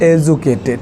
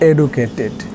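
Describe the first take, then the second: First: The middle consonant is a j sound. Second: The middle consonant is a plain d sound.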